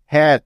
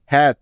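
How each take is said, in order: Both takes have the same delivery.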